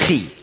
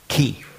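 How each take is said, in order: First: It begins with a rasping ch sound. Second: It begins with a hard k sound. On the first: The speaker calls it wrong. "Nicht Schweizerdeutsch" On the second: The speaker calls it right. "das hat man eigentlich ausgesprochen, Ki"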